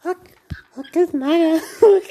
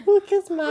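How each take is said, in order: First: High silly Hulk voice; Hulk impression. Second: Very high squeaky Hulk; Hulk impression. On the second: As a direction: squeak it even higher. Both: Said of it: "Faz o Hulk".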